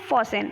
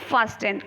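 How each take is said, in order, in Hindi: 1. t की ध्वनि छोड़ दी जाती है। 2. t की ध्वनि बोली जाती है। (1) "लेकिन बोलते क्या है" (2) "क्या लिखते हैं"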